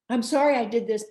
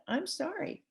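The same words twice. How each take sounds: First: Louder, pushy sorry with a hidden but; sorry that's really a defence; fake apology. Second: Higher, softer, sincere sorry; humble apology. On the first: Demo of a bad apology to a partner, pushy and defensive. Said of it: "That is not an apology". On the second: Demo of a good apology to a partner, soft and humble. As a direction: simply own it, gently. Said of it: "it's powerful". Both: Shown as a demonstration.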